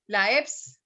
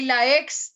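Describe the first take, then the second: First: "eps" with p in place of k; P substituted for X. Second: "ex" slowly, ending in ks; correct X sound. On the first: Retold or imitated. Teacher imitates the student's error, ps for x. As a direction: close the lips before the s in "eps". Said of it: "Estás reemplazando la P por la X". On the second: Shown as a demonstration. Teacher contrasts the student's error, clear ks. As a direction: model "ex" with k before the s. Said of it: "Y, y la ex también".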